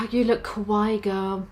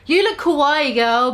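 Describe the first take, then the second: First: Put-on softer, lower, sad reread of "You look kawaii, girl"; sadly. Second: Said in the usual way. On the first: Shown as a demonstration. Bloody Mary sadly complimenting the goth girl, soft and low. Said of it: "Bloody Mary said sadly". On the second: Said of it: "Let me go over that".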